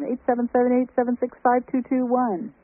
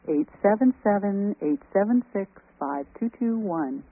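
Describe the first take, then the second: First: The number is said very fast. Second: The number is said slowly.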